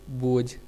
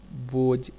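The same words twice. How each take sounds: First: Said in the usual way. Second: बोझ ending in a plain j, "boj"; deaspirated dialect form. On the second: Shown as a demonstration. Lecturer showing Kauravi speech, बोझ deaspirated to "boj". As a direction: drop the breath after j in बोझ. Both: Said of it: "महाप्राण के अल्पप्राण कर देने".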